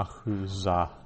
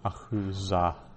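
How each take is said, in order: First: The middle consonant is a z sound. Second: The same.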